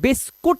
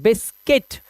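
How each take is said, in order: First: The second syllable has an 'oo' vowel. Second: The second syllable has an 'ih' vowel. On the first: The speaker calls it wrong. "इसको हम बिस्कुट नहीं बोलते" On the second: The speaker calls it right. "इसको बोलते हैं बिस्किट"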